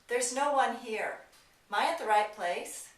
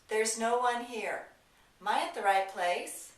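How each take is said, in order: Both takes have the same delivery.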